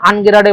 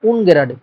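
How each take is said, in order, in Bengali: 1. শব্দটি 'a' স্বরধ্বনি দিয়ে শুরু হয়। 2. শব্দটি 'u' স্বরধ্বনি দিয়ে শুরু হয়। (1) "অনেকে বলবে আনগেরাডে বলো" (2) "না উনগেরাডে"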